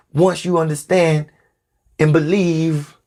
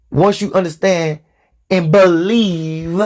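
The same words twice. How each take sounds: First: Said in the usual way. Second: "believe" drawn out slowly; stress on "believe". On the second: Shown as a demonstration. Preacher underlining a key word for followers, stress on "believe". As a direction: lean on "believe", stretching it long. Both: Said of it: "Let me emphasize the word".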